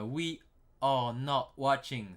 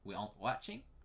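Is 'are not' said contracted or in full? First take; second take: full; contracted. First: Are not is said as two full words. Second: Are not is squeezed into one short word.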